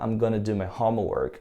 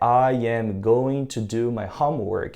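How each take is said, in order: First: It is contracted to 'I'm gonna'. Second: Every word is said in full.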